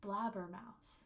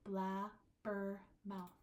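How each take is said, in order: First: Said in the usual way. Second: Very slow, "Blabbermouth" split into three syllables. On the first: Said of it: "There should be four syllables". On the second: Shown as a demonstration. Teacher splitting a word for counting, slow separated syllables. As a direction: break "Blabbermouth" into blab, ber, mouth. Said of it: "Three vowel sounds".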